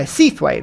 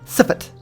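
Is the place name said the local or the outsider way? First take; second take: outsider; local. First: The name is said with two full syllables. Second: The name is said short, like 'siffert'. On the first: This is how a newcomer to the area says it. "that's how I'd say it" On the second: This is how people from the area say it. "the locals call that Siffert"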